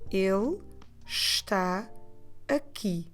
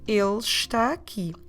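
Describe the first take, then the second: First: It is said slowly, word by word. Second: It is said fast, words run together.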